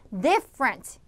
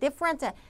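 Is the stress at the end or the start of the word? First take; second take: start; end. First: The stress falls on the first syllable. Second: The stress falls on a later syllable. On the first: The speaker calls it right. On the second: The speaker calls it wrong.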